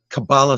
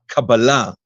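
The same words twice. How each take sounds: First: The word is pronounced the American way. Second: The word is pronounced the Hebrew way. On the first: "Kabbalah sounds very American" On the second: "the Hebrew version of the pronunciation"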